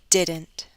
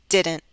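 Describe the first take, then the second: First: The final T is clearly released. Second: The final T is cut off sharply. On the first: "I'll say it with a true T" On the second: "With a glottal stop"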